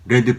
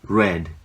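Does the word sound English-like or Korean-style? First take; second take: Korean-style; English-like. First: It has an added vowel, Korean-style. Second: It is a single syllable, English-like. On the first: The speaker calls it wrong. "레드라고 얘기를 하는 것보다" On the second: The speaker calls it right. "훨씬 더 영어 발음에 가까운 표기법입니다"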